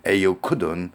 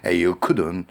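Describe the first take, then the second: Both takes have the same delivery.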